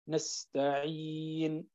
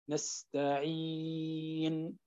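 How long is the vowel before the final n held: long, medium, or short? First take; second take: medium; long. First: The long vowel is held for four counts. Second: The long vowel is held for six counts. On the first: "4 حركات" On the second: "6 حركات"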